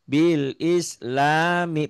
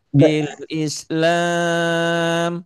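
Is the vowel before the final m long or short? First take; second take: short; long. First: The vowel before m is short, the word continues. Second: The vowel before m is lengthened, then it stops. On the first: The reading continues without stopping. "Panjangnya cuma satu alif" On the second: The reader stops at this word. "Tapi kalau dihentikan, ... jadi panjang"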